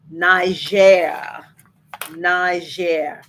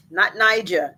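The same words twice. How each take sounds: First: Niger said the French way, nee-ZHEH; French pronunciation. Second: Niger said English way, NY-jer; Niger with hard J and long I; wrong pronunciation. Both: Shown as a demonstration. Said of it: "'cause it's French".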